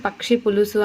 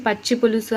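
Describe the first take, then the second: First: పక్షి with k before sh; ksh cluster. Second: పచ్చి with a plain double ch. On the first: Teacher contrasting two forms, పక్షి with a ksh cluster. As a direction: say పక్షి as "pakshi". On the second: Teacher contrasting two forms, పచ్చి with double ch. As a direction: say పచ్చి as "pachchi", no k. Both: Shown as a demonstration. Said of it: "ఈ విధంగా differences".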